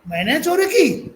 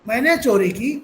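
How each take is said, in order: First: It is said with an exclaiming, astonished tone. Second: It is said flatly as a plain statement. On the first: The speaker implies the opposite, denying the theft. "यहां विस्मय सूचक चिन्ह है" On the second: The speaker admits to the theft. "पूर्ण विराम हो गया"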